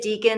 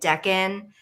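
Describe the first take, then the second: First: The first vowel is a long 'ee' sound. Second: The first vowel is a short 'eh' sound. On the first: This is how the speaker used to say it. "I used to say it deacon" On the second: This is how other people say it. "I started hearing people saying it Deccan"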